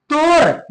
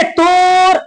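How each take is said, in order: First: Said in the usual way. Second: तोर with a long, held o; wrongly drawn-out vowel. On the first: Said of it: "बिल्कुल सादा लफ्ज में बोल देना है". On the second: Shown as a demonstration. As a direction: stretch the o in तोर as a mistake. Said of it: "गलत हो जाएगा".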